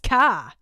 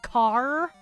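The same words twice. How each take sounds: First: The final R sound is dropped. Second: The final R sound is clearly pronounced. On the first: "She says car, which is hilarious" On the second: "car with a hard R"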